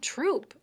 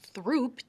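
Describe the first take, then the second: First: It begins with a plain T sound. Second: It begins with a TH sound. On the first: "people just pronounced it Troop" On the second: "T H R O O P"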